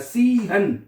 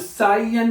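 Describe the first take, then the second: First: The vowel is said like 'ee'. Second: The vowel is said like 'eye'. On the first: The speaker calls it right. "सीहन है, आई को ई पढ़ना आपने" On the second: The speaker calls it wrong. "अब साइयन नहीं पढ़ना"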